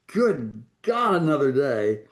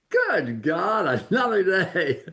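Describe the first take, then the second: First: It is said in a gloomy, weary tone. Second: It is said in a bright, cheerful tone.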